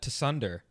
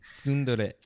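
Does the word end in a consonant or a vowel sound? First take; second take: consonant; vowel. First: The word ends on an r sound. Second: The word ends on a final vowel. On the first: The speaker calls it wrong. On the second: The speaker calls it right.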